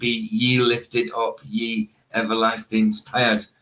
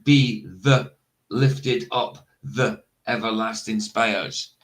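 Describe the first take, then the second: First: The word is pronounced with a 'y' sound. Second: The word is pronounced with a 'th' sound. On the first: The speaker calls it wrong. "ye is not a word" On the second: The speaker calls it right. "That is that actually says"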